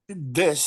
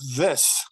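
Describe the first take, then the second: First: The word begins with a d sound. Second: The word begins with a th sound. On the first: The speaker calls it wrong. "you used the word this d like D I S" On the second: The speaker calls it right. "the th comes through a lot clearer"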